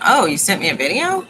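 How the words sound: The voice rises at the end, like a question. It asks whether a video was sent. "inflection on the end, that it was a question"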